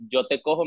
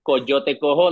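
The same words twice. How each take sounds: First: "yo te cojo" without the opening CO; first syllable dropped. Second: "Coyote cojo" with the first CO sounded; full phrase. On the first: Co-host explaining the pun, "yo te cojo" with CO left out. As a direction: start straight on "yo", as in "yo te cojo". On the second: Co-host explaining the play on words, "Coyote cojo" in full. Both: Shown as a demonstration. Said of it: "leave the first C O out".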